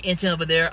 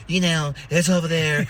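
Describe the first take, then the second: First: Said in the usual way. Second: Louder, lightly put-on voice of the orange dude; a loose imitation of the orange dude, pointing the way; orange dude impression. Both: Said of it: "I see orange dude".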